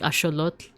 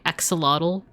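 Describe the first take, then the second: First: The ending is said with a 'tl' sound. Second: The ending is said as an English 'tul'. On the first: This is how the original speakers said it. "they they would have said like axolotl" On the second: This is the usual English way. "instead of saying axolotl"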